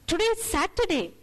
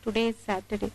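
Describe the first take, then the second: First: It is said in an eager, bright tone. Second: It is said in a weary, burdened tone. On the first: The day is something to look forward to. "that inflection changes and you're looking forward to the day" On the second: There is lots of work to do today. "Maybe I have lots of work to do on Saturday"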